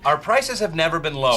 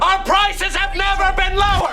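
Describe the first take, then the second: First: It is said quietly. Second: It is said loudly.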